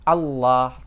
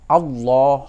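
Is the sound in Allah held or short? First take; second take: held; short. First: The sound is held and sustained. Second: The sound is not held, said short. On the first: The speaker calls it right. "tapi Allah. Ini harus ditahan" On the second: The speaker calls it wrong. "bukan Allah"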